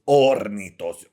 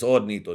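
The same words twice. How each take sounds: First: The r is rolled long and hard. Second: The r is a short single tap. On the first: The speaker calls it wrong. "Why do you put three R's in this shit" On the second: The speaker calls it right. "It's only one"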